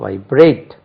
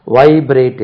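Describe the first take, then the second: First: vibrate with prayed hit hard; vibrate stressed as vai-BRATE; stress on second syllable. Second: vibrate with வை hit hard; vibrate wrongly stressed as VAI-brate; stress on first syllable. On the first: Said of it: "second syllable stress". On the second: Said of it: "vibrate இல்லது". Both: Shown as a demonstration.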